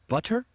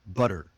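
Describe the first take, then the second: First: BUTTER with a crisp T, pitched up and rising; hard T in butter, as if asking. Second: BUTTER with a quick D-like T, low and falling; smooth flapped T in butter. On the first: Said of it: "Try it one way". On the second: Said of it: "sound that's almost like D". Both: Shown as a demonstration.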